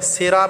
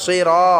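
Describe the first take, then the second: First: "সিরা" with a light s and open a; unemphatic, flattened "সিরা" without the heavy saad; wrong thin s. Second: "সিরা" with thick emphatic s and rounded ra; full, heavy Arabic "সিরা"; heavy saad. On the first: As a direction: say "সিরা" thinly, as plain sira. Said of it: "সিরা বললে হবে না". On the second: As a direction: fill the mouth on "সিরা", sirɔ. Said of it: "মোটা করে উচ্চারণ করতে হবে". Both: Shown as a demonstration.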